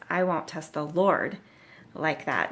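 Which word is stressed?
Lord. The stress falls on the word Lord. He is unwilling to ask this of God specifically. The speaker calls it right. "What he's really saying is"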